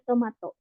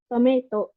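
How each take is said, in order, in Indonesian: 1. Diucapkan dengan cara Jepang. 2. Diucapkan dengan cara Inggris. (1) "orang Jepang tuh bacanya ya tidak menyesuaikan dengan pengucapan bahasa Inggris" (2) "kalau bahasa Inggrisnya tomato kan ini ya"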